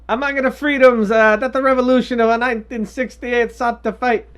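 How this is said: It is spoken in a put-on Italian accent. "quotes are going to be in my bad Italian accent"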